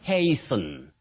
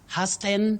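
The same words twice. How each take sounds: First: The first vowel is a long 'ay' sound. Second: The first vowel is a short 'ah' sound. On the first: The speaker calls it right. "So you say hey" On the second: The speaker calls it wrong. "not ha. Hasten, no"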